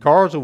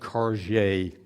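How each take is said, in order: First: The name ends without a soft 'j' sound. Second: The name ends with a soft 'j' sound. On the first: The speaker calls it right. "I got that pronunciation from Doctor John Marszalek" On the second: The speaker calls it wrong. "I'd been saying Karje. That's not correct"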